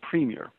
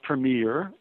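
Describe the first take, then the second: First: It is said the standard Canadian way. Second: It is said one of the American ways. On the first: The speaker calls it right. "it's always pronounced premier" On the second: The speaker calls it wrong. "It is not premier or premier or premier, which are just 3 of the many pronunciations of those various words that Americans have"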